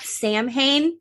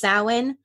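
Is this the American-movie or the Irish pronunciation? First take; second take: American-movie; Irish. First: It uses the American-movie pronunciation of the word. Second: It uses the Irish pronunciation of the word. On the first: The speaker calls it wrong. "not Samhain" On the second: The speaker calls it right. "that is pronounced Samhain"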